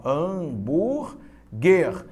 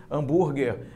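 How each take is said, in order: First: "Hambúrguer" very slowly as ham, búr, guer; syllable by syllable. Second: Said in the usual way. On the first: Shown as a demonstration. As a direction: stretch "Hambúrguer" into three separate syllables. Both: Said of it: "separa as sílabas comigo de hambúrguer".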